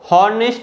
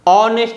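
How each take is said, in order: First: The word begins with an h sound. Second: The word begins with a vowel sound. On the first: The speaker calls it wrong. "आपको हॉनेस्ट नहीं" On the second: The speaker calls it right. "ऑनेस्ट रहना है। इसमें जो letter एच है यह silent है"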